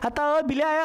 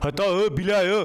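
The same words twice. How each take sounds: First: It is said in a thin, high voice. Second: It is said in a deep, heavy voice. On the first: This is how a girl sounds. "लड़कियों में पतली आवाज बन जाती है" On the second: This is how a grown boy sounds. "वो गब्बर जैसी मोटी आवाज हो जाती है"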